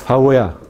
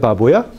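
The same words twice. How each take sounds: First: The lips only come close, letting air through. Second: The lips close fully, making a stop. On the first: The speaker calls it right. "sino uh, baboya" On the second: The speaker calls it wrong. "No se dice baboya, bu, porque oclusiva"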